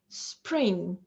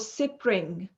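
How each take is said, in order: First: There is no extra vowel anywhere. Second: An extra vowel is added between s and p. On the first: The speaker calls it right. "we have to pronounce them without any intrusive vowel sounds" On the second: The speaker calls it wrong. "nor spe or"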